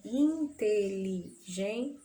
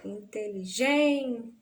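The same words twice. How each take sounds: First: In-te-li-gen-te, very slowly, syllable by syllable; separação silábica. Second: Inteligente with GEN stretched and pushed; stress on GEN. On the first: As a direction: break inteligente into syllables with small gaps. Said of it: "separação silábica". (inteligente bem devagar, separando as sílabas) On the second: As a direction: lean hard on the gen in inteligente. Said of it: "Da sílaba tônica dessa palavra". (inteligente com a sílaba tônica GEN bem marcada) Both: Shown as a demonstration.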